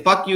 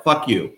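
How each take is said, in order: First: FUCK jumps up high, hurled out; emphatic fuck you. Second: Said in the usual way. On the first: Retold or imitated. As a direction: spit out "Fuck you" with the pitch thrown up. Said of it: "And I, and I say". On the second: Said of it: "That's my answer to them".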